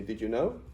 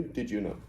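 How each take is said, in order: First: Rising question tune on "know"; question intonation. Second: Said in the usual way. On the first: Shown as a demonstration. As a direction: lift "know" at the end into a question. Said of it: "you change the intonation". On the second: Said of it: "And then you change the intonation".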